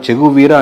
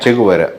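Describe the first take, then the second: First: The name is said the local Telugu way. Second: The name is said the original Spanish way. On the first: This is how the family usually says it. "మనం చెగు వీర అంటాం" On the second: This is the name's actual pronunciation. "Actual pronunciation"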